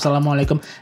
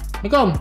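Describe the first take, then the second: First: Every syllable of the greeting is said fully. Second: The greeting is said fast with syllables dropped. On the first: "Harusnya diucapkan secara lengkap" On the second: "Cuma sekilas-sekilas saja salamnya... Jadi omongannya cepat"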